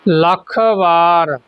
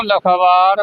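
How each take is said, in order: First: ਲੱਖ ਵਾਰ slowly as two words; separated words. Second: ਲੱਖ ਵਾਰ run together as "lakhvaar"; no gap in ਲੱਖ ਵਾਰ; wrong merged reading. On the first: Teacher modelling for learners, slow separated pronunciation. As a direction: finish ਲੱਖ, then stretch ਵਾਰ. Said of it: "ਇਸ ਤਰ੍ਹਾਂ ਉਚਾਰਨ". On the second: Teacher warning learners against merging, run-together pronunciation. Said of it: "ਇਕੱਠਾ ਨਹੀਂ ਪੜ੍ਹਨਾ". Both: Shown as a demonstration.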